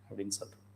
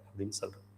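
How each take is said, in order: No difference in how they are said.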